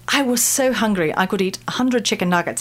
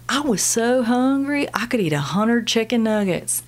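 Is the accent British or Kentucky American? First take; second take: British; Kentucky American. First: It is said in a British accent. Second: It is said in a Kentucky accent.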